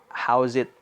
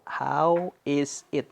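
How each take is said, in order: First: How and is are run together into one sound. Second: How and is are said as separate words.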